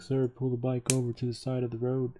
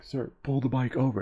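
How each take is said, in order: First: Higher-pitched imitated cop giving an order; scooter officer's order. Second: Mock-angry cop, higher-pitched; mad officer. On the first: Officer to cyclist on the street, imitated official order. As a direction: mimic an officer ordering a rider over. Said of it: "the officer is on his scooter, and he's like". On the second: Officer repeats his order to cyclist, imitated mild anger. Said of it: "and he got mad".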